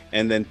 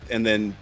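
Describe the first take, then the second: No difference in how they are said.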